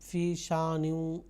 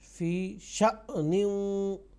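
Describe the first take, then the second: First: The hamza is glided over smoothly without a catch. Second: The hamza is cut off with a sharp catch. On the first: The speaker calls it wrong. "इस तरह से सादा नहीं" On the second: The speaker calls it right. "शअनिन झटके के साथ"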